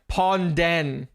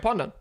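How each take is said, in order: First: The second syllable is said as a full 'den'. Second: The second syllable is said as a weak, reduced vowel. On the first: The speaker calls it wrong. "they try too hard to pronounce it like Ponden" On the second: The speaker calls it right. "you don't have to pronounce the den like den. You just go Pondon"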